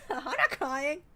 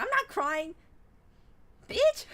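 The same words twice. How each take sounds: First: A high denial through a laugh. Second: High, loud denial that jumps up on bitch; mock denial shout. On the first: Retold or imitated. Streamer repeating her denial to the character, giggling through it. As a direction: laugh as you deny crying. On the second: Streamer quoting her defiant reply to the character, in a high mock shout. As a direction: yell the denial, voice cracking upward at the end. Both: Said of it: "And I was just like".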